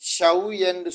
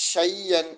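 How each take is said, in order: First: The middle consonant is a w sound. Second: The middle consonant is a doubled y sound. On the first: The speaker calls it wrong. "ஷவ்யன் சொல்லாம" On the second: The speaker calls it right. "ஷையன் அப்படின்னு நம்ம சொல்லணும்"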